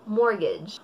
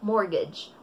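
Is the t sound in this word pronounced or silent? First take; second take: silent; silent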